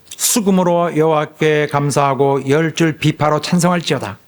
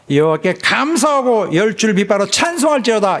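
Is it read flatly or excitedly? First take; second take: flatly; excitedly. First: It is read in a flat, plain way. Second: It is read in an excited, lively way.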